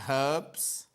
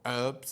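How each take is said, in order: First: It is said in a British accent, with h. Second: It is said in an American accent, without h.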